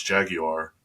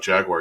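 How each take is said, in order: First: "Jaguar" said as JAG-yar, with a y glide; corrected British pronunciation. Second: Said in the usual way. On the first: Retold or imitated. Quoting dealership staff correcting callers, "Jaguar" as JAG-yar. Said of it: "They would say that". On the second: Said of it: "It's not Jaguar".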